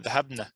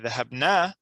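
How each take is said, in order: First: The final vowel is short. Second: The final vowel is long. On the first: The ladies went. "The noon with uh, fatha" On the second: We went. "that means we went"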